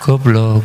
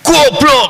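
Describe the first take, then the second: First: It is said softly and quietly. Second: It is shouted loudly.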